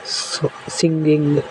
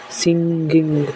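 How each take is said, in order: First: singing stretched out slowly, each syllable drawn long; slow example word. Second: Said in the usual way. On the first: Shown as a demonstration. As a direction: draw out singing so the final ङ्ग is heard. (Singing को धीरे-धीरे खींचकर बोलें) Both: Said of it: "जैसे".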